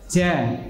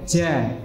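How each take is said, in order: Both takes have the same delivery.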